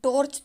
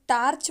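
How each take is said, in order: First: The first vowel sounds like a pure 'o'. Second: The first vowel sounds like a pure 'aa'. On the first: "हम टॉर्च तो नहीं बोलते" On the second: "ना ही हम टार्च बोलते हैं"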